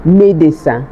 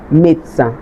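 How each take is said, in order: First: Médecin said in three syllables, "may-day-san"; spelling-style Médecin, every syllable sounded; as written. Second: Médecin squeezed to two syllables, "mate-san"; médecin as "met-san", no middle vowel; spoken French pronunciation. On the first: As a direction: give Médecin its middle E. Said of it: "it's written médecin". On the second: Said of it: "But it is pronounced". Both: Shown as a demonstration.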